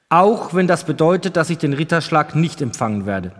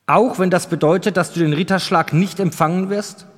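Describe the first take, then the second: First: Steady statement, settling at the end; firm, mildly emphatic affirmation. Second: "Auch" stressed, the sentence left open as a question; probing question. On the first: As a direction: repeat it with resolve, closing it off. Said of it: "wiederholte Thury mit fester Stimme". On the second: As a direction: ask it as a test, leaning on "Auch". King tests squire with a question. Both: A narrator's reading.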